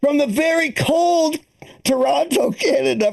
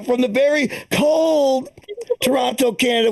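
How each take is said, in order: First: Announcer voice. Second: Slower, lingering joke announcement; slow, drawn-out announcer. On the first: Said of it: "repeated announcer take". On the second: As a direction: stretch out very cold slowly. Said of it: "inside joke with Jerry". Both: Acted.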